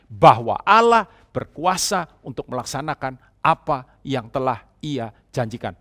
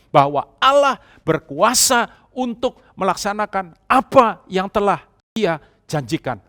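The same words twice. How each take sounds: First: It is said at normal volume. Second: It is said more loudly.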